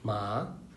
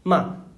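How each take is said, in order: First: The syllable carries the second tone. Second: The syllable carries the fourth tone. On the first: "second" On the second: "fourth"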